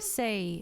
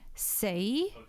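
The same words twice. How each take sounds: First: The pitch is falling or flat on the word. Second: The pitch rises on the word. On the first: "with a kind of downward slash flat tone" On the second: "with an upwards tone"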